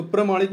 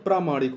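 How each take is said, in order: First: "प्रमाणिक" said with a short "प्र" as the wrong form. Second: "प्रामाणिक" with a long "प्रा"; correct form प्रामाणिक. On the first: Teacher to exam students, reading out the wrong spelling प्रमाणिक. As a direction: read "प्रमाणिक" as the incorrect spelling, no long a. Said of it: "प्रमाणिक नहीं होता". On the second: Teacher to exam students, stressing the long प्रा in प्रामाणिक. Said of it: "प्रामाणिक होता है". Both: Shown as a demonstration.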